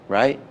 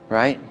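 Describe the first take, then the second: Both takes have the same delivery.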